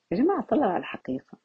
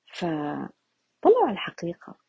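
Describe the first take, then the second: First: Fast, light طلعوا على الحقيقة; quick repeat. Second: Slow, weighty فطلعوا على الحقيقة; slow emphatic. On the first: Teacher repeating to the group, quick and offhand. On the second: Teacher telling listeners the truth, slow and weighty. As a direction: drag out فطلعوا على الحقيقة to let it sink in. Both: Shown as a demonstration.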